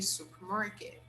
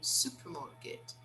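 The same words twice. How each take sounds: First: It is said with the R sound. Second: It is said without the R sound. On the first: "But in American English, we say supermarket" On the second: "They don't really pronounce the letter R. They say supermarket"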